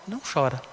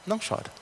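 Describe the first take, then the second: First: Said in the usual way. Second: "chora" almost breathed, much softer; soft comforting. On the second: Acted. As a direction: hush him gently, barely voiced. Elder comforting the weeping João.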